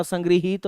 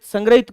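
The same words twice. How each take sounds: First: संग्रहित said as "sangriheet", री then a clear ही; संग्रहित with ग्री and a long ईत, "san-gri-heet"; संग्रहित spoken correctly as संग्रहीत; correct form shown. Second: संग्रहित said as "sangrahit", short a after ग्र, no ह sound; संग्रहित spoken the common wrong way, "sangra-it"; संग्रहित as "sangrahit", the form to avoid; wrong form shown. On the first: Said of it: "संग्रहित होता है". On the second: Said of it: "संग्रहित कोई शब्द नहीं होता". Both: Shown as a demonstration.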